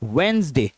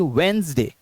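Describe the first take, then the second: Both takes have the same delivery.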